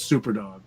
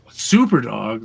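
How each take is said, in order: First: "Super Dog." dropped lower and softer, flat and resigned; resigned deadpan. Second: "Super Dog?" with a disbelieving question lift; incredulous question. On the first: Mocking the obvious plot twist, a resigned low deadpan. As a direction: shrug it off, of course it's him. Mocking heroes' sudden idea. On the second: Mocking the heroes for calling the dog, an incredulous question. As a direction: repeat it as if you can't believe it. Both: Retold or imitated.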